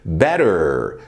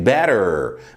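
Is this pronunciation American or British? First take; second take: American; British. First: The t is a quick r-like flap. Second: The t is a clear t sound. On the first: "better no americano" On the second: "better no britânico"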